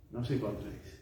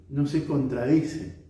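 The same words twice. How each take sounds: First: Low, much softer "No se contradice"; quiet, lowered echo of the point; hushed repetition. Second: Slow, full-voiced "No se contradice"; unhurried, plainly audible assertion; measured statement. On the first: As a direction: drop the voice to let it sink in. Repeats the point after a pause. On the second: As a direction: state the point deliberately at normal volume. Preacher makes point, then repeats it. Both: Real, not acted.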